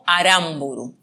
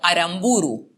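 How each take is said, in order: First: The stress is on the second syllable. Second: The stress is on the third syllable. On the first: "privilegiar la dicción en esdrújula" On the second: "optan por el sonido grave"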